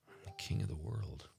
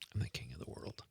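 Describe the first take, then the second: First: It is said with melodramatic soap opera emotion. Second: It is said hushed, like a guilty secret.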